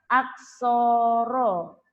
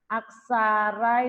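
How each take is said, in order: First: The vowels are pronounced as rounded 'o' sounds. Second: The vowels are pronounced as open 'a' sounds. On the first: This is how the word is read in Javanese. "kalau dalam bahasa Jawa, ... dibaca aksoro" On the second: This matches how the word is written. "aksara itu"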